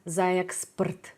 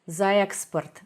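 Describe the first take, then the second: No difference in how they are said.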